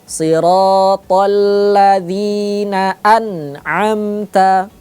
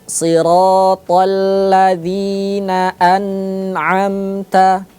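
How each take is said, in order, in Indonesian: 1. Huruf n didorong keluar dengan hentakan keras. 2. Huruf n ditahan dengan dengung hidung. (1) "Tidak boleh dihentak, ya, terlalu kuat hentakannya" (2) "tidak boleh dibaca dengung"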